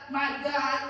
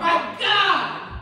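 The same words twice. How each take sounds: First: It is said plainly, without extra force. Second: It is said with more force and emphasis.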